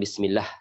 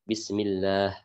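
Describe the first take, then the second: First: The vowel in the last syllable is kept short. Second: The vowel in the last syllable is lengthened. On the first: The speaker calls it wrong. "bukan Bismillah" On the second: The speaker calls it right. "satu mat yang harus kita panjangkan"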